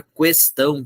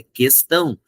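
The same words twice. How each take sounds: First: "questão" with the u sounded, kwes-TÃO; mispronounced questão. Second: "questão" with a silent u, kes-TÃO; correct questão. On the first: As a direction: say "questão" as kwestão, sounding a W after the Q. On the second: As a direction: say "questão" as kestão, a hard K with no W. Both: Shown as a demonstration. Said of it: "falar questão é errado".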